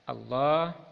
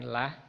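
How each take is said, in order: First: The l sound is heavy and dark. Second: The l sound is thin and light. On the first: The speaker calls it right. "lamnya dibaca tafkhim tebal" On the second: The speaker calls it wrong.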